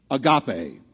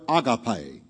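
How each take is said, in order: First: Agape said uh-GAH-pay; low agape with weight on GAH; alternative pronunciation. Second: Agape said AH-gah-pay; slow agape, first syllable as AH; alternative pronunciation. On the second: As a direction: open AH to start agape, stressed up front. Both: Shown as a demonstration. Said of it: "or agape".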